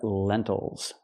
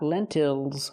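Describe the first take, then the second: First: The second syllable has a relaxed 'ul' sound. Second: The second syllable has a clear 'ill' vowel. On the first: The speaker calls it right. "but lentils ... we do not say ill, we say O" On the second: The speaker calls it wrong. "Not lentils"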